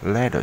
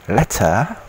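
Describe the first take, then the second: First: It is said with a soft American t. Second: It is said with a clear British t.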